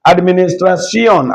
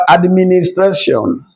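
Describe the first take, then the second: First: Administration turned Spanish, ending in see-ON; Spanish pronunciation. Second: Said in the usual way. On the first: Shown as a demonstration. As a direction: say Administration as ad-mi-nis-tra-SYON. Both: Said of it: "What about administration?".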